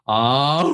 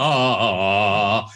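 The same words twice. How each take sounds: First: Broken register slide. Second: Long, seamless sustained "ah"; one connected voice. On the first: Coach showing how not to sound, breaking "ah". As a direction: let "ah" crack upward. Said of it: "you don't sound like this". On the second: Coach showing middle voice joins all, smooth "ah". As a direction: glide without any register break. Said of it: "you sound like this". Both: Shown as a demonstration.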